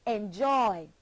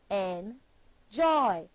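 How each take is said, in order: First: Said in the usual way. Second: "Enjoy" broken in two, en, pause, joy; split into syllables. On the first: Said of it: "Put your hand beneath your chin and say". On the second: Shown as a demonstration. Teacher counts syllables for learners, "Enjoy" split as en, joy. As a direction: say "Enjoy" slowly, one syllable at a time with a gap. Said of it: "Two syllables".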